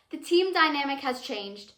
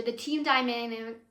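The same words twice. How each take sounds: First: Said in the usual way. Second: Stumbling over the words; stuttering. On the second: Real, not acted. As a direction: trip over the phrase. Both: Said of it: "wow, I'm stuttering so much".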